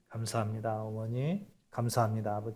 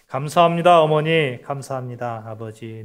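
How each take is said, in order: First: It is said at normal volume. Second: It is said more loudly.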